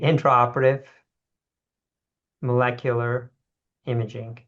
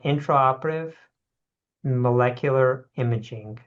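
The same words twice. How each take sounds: First: It is said slowly and deliberately. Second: It is said at normal conversational speed.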